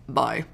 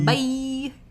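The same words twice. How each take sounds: First: It is said short in a gravelly voice. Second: It is said in a normal voice.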